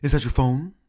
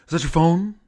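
First: Mild, lightly put-on actor voice; a first try at the impression; William Shatner. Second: Higher, louder put-on voice, rising question; William Shatner. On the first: Shatner asks us in the hallway, light impression. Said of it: "he looks over and he says". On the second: Second try at Shatner asking about the phone, hammed-up impression. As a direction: push the impression harder, pitch it up. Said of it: "Let me try it again".

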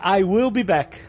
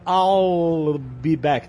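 First: Said in the usual way. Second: "I'll" stretched out very slowly before "be back"; labored "I'll". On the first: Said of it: "a frase seria". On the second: Retold or imitated. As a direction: struggle through a long, drawling "I'll". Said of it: "dificuldade enorme de falar".

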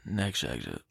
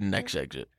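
First: Very low, soft, done-with-it order; fed-up dad voice. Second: Low, flat, done-with-it order; fed-up dad voice. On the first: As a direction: drop it low and flat, over it. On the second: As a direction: mutter it low, totally over it. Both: Retold or imitated. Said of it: "in that tone and that sort of just attitude".

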